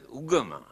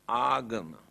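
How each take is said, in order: First: The first vowel sounds like a short 'uh'. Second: The first vowel sounds like an open 'ah'. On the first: This is how people say it today. "Here now they pronounce it as ugama" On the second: This is the original form of the word. "but the original word is agama"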